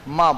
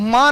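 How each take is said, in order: First: The word is said lightly, without force. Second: The word is said with heavy force. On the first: The speaker calls it right. "मां बोलता है" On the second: The speaker calls it wrong. "मां नहीं बोलता है ... इतना जोर अपन देते ही नहीं है"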